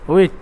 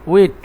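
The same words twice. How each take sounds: No difference in how they are said.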